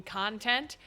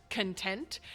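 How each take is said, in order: First: CONtent, stressed on the first syllable; stress on CON. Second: ConTENT, stressed on the second syllable; stress on TENT. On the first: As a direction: hit the first half of "content". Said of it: "Emphasis put on con". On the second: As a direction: slowly lean on the second half of "content". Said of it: "emphasis put on the second half". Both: Shown as a demonstration.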